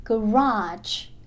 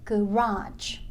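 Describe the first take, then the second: No difference in how they are said.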